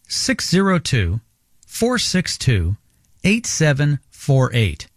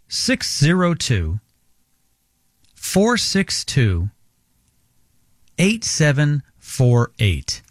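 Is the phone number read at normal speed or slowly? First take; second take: normal; slowly. First: The number is read at normal speed. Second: The number is read more slowly.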